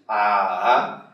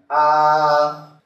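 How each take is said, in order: First: The pitch goes up and then down. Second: The pitch stays high, level and long. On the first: "ela sobe e desce" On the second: "um A cantado... um som bem contínuo"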